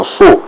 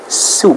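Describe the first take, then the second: First: Su with a heavy, emphatic S; wrong thick S. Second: Su with a light, hissed plain S; thin sin. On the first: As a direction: show the mistake, su thickened like shad. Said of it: "bukan su". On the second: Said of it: "sin dibaca dengan tipis". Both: Shown as a demonstration.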